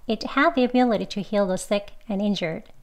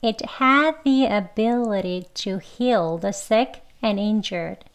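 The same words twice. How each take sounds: First: The sentence is said fast. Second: The sentence is said slowly. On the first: "빨리도 두 번 해볼게요" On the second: "천천히 먼저 두 번 해볼게요"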